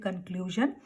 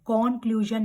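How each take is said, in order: First: The first vowel sounds reduced, like 'cut'. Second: The first vowel sounds open, like 'cot'. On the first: The speaker calls it right. "We will say कंक्लूजन" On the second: The speaker calls it wrong. "कॉन्क्लूजन नहीं कहेंगे"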